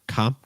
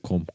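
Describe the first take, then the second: First: The vowel is said more open. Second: The vowel is said less open. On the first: The speaker calls it right. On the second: The speaker calls it wrong.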